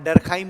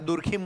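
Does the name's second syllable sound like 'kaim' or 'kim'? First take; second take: kaim; kim. First: The second syllable has a long 'ai' vowel. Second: The second syllable has a short 'i' vowel. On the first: This is how the name is said in English. "कई जगह हम लोग जैसे वहां डरखाइम बोलते हैं" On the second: This is how the name is said in Hindi. "यहाँ दुरखिम बोल देते हैं हिंदी में"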